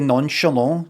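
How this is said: It is pronounced the French way. The speaker sounds fancy and precise. "French say nonchalant. That's if you want to say it full blown French"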